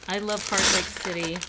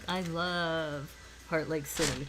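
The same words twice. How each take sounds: First: It is said in a plain, sincere tone. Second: It is said in a sarcastic tone.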